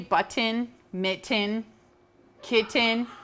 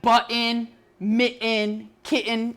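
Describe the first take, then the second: First: The middle T's are pronounced clearly. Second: The middle T's are swallowed.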